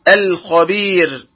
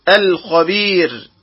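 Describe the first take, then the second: No difference in how they are said.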